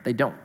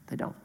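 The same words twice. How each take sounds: First: "They don't" dropped low and soft; quiet answer. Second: "They" leaned on, "don't" clipped short; stress on they. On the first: Pastor answers his own question, "They don't", softly. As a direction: let "They don't" fall away quietly. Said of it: "Don't you know what's happening". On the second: Pastor repeats "They don't" to the congregation, hitting "They". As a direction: push the word "They" hard. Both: Shown as a demonstration.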